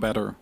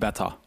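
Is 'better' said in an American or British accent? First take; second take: American; British. First: It is said with an American accent. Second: It is said with a British accent. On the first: The speaker calls it right. "Dit is Amerikaans. Dus gewoon better" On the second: The speaker calls it wrong. "niet beta"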